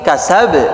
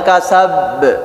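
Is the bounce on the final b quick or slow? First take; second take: quick; slow. First: The final b bounces quickly and briefly. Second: The final b bounces slowly and drawn out. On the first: The speaker calls it right. "Tapi kasab" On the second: The speaker calls it wrong. "Jangan lambat, jangan kasab"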